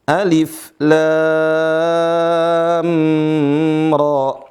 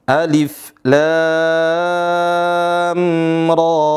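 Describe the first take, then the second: The two takes are said the same way.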